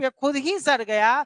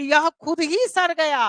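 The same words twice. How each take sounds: First: Said in the usual way. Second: खुद ही raised and pushed, सड़ landing firmly; खुद ही lifted higher and punched; emphatic stress. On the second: Shown as a demonstration. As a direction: insist it rotted by itself, stressing खुद ही. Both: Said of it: "इस पे जोर देके बोलते हैं".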